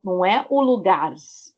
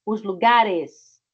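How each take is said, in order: First: Said in the usual way. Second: "os lugares" said slowly and clearly; correcting the plural; slow correct form. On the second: Shown as a demonstration. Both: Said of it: "Recebe E S no final".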